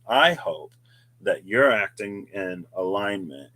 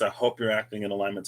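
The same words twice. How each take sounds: First: "acting" and "alignment" set out with deliberate weight; stress on acting and alignment. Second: Said in the usual way. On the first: Shown as a demonstration. Host repeating a wish to viewers, emphasis on "acting" and "alignment". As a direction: lean on "acting", then on "alignment". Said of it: "Emphasis on acting, emphasis on alignment".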